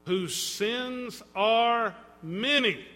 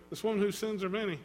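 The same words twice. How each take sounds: First: Each word of "whose sins are many" drawn out slowly, falling at the end; slow and weighty. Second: Said in the usual way. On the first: Shown as a demonstration. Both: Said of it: "catch the words".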